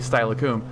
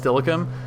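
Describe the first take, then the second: First: The name is read out from its spelling. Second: The name is said the local way. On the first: The speaker calls it wrong. "It's clearly Steilacoom" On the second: The speaker calls it right. "you hear Stillicum and you like just know that that's Stillicum"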